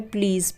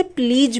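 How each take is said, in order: First: प्लीज़ said with a buzzing z at the end; teacher's model of प्लीज़, final sound z instead of j; correct z pronunciation. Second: प्लीज said with a j sound at the end; wrong-way demo of प्लीज, final z turned into j; common mispronunciation. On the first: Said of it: "ज पे बिंदी आती है". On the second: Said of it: "जो कि गलत है". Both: Shown as a demonstration.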